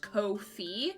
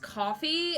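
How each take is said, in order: First: The first syllable sounds like 'go'. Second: The first syllable sounds like 'cough'. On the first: The speaker calls it right. "Like ko and then fee" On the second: The speaker calls it wrong. "I keep being told it's coffee"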